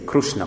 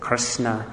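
First: Krishna is said with an Odia accent. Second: Krishna is said with an American accent. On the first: "in Arisa they say Krishna" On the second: "in America they say Krishna"

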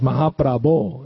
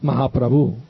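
First: The word ends with an 'o' vowel. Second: The word ends with a 'u' vowel. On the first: The speaker calls it right. "It's an O" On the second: The speaker calls it wrong. "It's not Mahaprabhu"

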